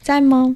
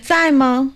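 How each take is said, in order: First: It sounds soft and friendly. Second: It sounds sarcastic and unfriendly.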